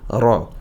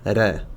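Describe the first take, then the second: First: The r is heavy and fills the mouth. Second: The r is light and thin. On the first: The speaker calls it right. "cet aspect lourd à la lettre" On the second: The speaker calls it wrong. "et pas"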